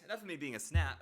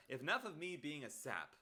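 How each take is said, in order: First: "snap" said with an s-n, the wrong word; tripping into "snap" instead of sap; slip of the tongue. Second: "sap" said cleanly, no n, as the fixed word; setting the slip right with "sap"; corrected word. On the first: Streamer misspeaking to chat, a plain slip of the tongue. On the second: Streamer fixing the word for chat, a plain correction. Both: Real, not acted. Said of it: "uh, a snap".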